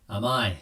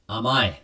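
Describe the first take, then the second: Both takes have the same delivery.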